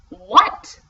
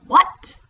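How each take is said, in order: First: It is said louder than before. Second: It is called out at moderate loudness.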